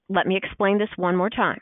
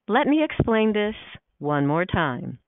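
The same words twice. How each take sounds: First: The tone sounds fairly neutral and matter-of-fact. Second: The tone sounds condescending and impatient. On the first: The point is simply being restated. "Now think about tone of voice here" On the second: The listener is implied to be slow to understand. "think of it this way"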